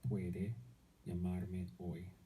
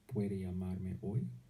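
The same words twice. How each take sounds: First: The voice falls at the end. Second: The voice rises at the end.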